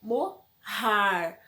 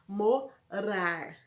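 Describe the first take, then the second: First: "morar" said mo, har, with an H sound; double-R sound. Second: "morar" split mo, rar with a rolled middle R; single-R sound. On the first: Teacher showing two R's, "morar" with aspirated middle R. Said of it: "se eu colocar dois R's". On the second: Teacher contrasting one R with two, "morar" with rolled R. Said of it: "um R só". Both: Shown as a demonstration.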